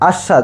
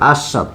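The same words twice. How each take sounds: First: The middle consonant is a sh sound. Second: The middle consonant is a plain s sound.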